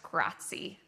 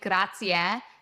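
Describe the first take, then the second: First: The final vowel is dropped. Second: The final vowel is clearly pronounced. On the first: The speaker calls it wrong. "and not just" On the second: The speaker calls it right. "you're really pronouncing that e at the end"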